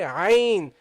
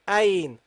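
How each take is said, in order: First: The first sound is made in the mid-throat. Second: The first sound is not made in mid-throat. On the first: The speaker calls it right. "Ain from the middle of the throat" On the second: The speaker calls it wrong. "not Ain"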